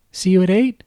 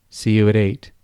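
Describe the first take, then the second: First: Much higher girlish voice with a hint of a man underneath; a grown man faking a little girl, pitched way up; babyish high voice. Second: Said in the usual way. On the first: Kyle as Kate signing off with Ron, high and babyish. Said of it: "his Cuddly Kate voice holding".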